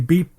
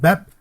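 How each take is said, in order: First: The vowel is long, as in 'beet'. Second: The vowel is short, as in 'bed'. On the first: This is how everyone else says it. "They all say Beep" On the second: This is the speaker's own way of saying it. "I pronounce it Bep"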